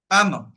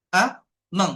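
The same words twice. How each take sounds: First: Said in the usual way. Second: আ, মং as two separate beats; split into syllables. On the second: Shown as a demonstration. Teacher asking how many syllables, আ, মং split apart. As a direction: pause clearly between আ and মং. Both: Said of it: "কয়টা আছে".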